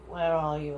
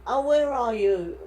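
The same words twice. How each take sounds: First: Said in the usual way. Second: A slower, higher and louder call. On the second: Retold or imitated. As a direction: call out slowly to find them. Driver calling out retold.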